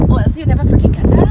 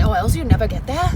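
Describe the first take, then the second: First: Loud, fast emphatic burst; emphatic outburst. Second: Said in the usual way. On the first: Real, not acted. Vlogger pushing viewers out of their comfort zone, emphatic outburst. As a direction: punch it out loud and quick.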